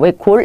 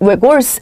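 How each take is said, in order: First: The word ends with an l sound. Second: The word ends with an added s syllable. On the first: The speaker calls it right. "외골입니다. 외골, 리을로 발음하셔야 됩니다" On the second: The speaker calls it wrong. "얘는 외골스 아니고요"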